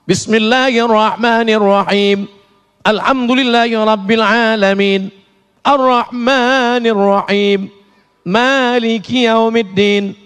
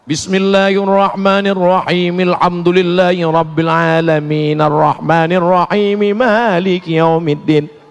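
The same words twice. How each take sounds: First: The reciter stops briefly after each verse. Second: The verses run together without stopping.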